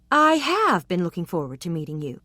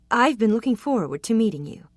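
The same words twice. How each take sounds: First: Firm, insistent repeat of his words; staunch insistence. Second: Said in the usual way. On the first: A narrator's reading. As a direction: stress on "have" in "I have been looking forward to meeting you". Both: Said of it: "he said staunchly".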